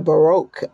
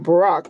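First: It is pronounced the American way. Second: It is pronounced the British way. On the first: "we say Baroque over here in the U.S" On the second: "I just heard the British say Baroque"

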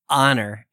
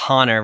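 First: The word begins with a glottal catch, no h. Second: The word begins with an audible h sound. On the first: The speaker calls it right. "It's honor" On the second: The speaker calls it wrong. "that H sound is not honor"

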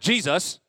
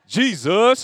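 First: The pitch stays level without a dip. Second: The pitch dips within the word. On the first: The speaker calls it wrong. "not like Jesus. Like, not like that" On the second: The speaker calls it right. "you have, like, a little dip to it"

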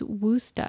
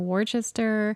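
First: Worcester is said the way locals say it. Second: Worcester is said the way non-locals say it. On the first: This is how people from there say it. The speaker calls it right. "the local pronunciation is Worcester" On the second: The speaker is not from there. The speaker calls it wrong. "that's how the people who aren't from there say it"

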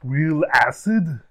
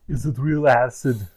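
First: It is said sounding surprised. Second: It is said without sounding surprised.

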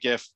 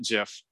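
First: It begins with a hard G sound. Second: It begins with a soft J sound. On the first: The speaker calls it right. "So I say GIF" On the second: The speaker calls it wrong. "not GIF"

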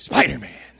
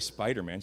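First: The word is said with loud, excited energy. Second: The word is said flatly, without excitement. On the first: The speaker calls it right. "You have to say it like that, otherwise it's not as exciting" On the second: The speaker calls it wrong. "Don't say Spider-Man"

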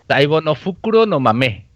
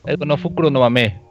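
First: It is said slowly. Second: It is said fast.

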